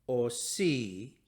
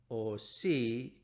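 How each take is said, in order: The two takes are said the same way.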